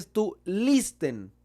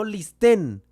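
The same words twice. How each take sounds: First: "listen" stressed on LIS, the ending unstressed; stress on first syllable. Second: "listen" wrongly stressed on the end, lis-TEN; stress on last syllable. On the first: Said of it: "recae en la primera sílaba". ("listen" con el acento en la primera sílaba, LIS-ten) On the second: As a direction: drag out and punch the second syllable of "listen", louder. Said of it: "el acento no recae en la última sílaba". ("listen" con el acento en la última sílaba, lis-TÉN) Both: Shown as a demonstration.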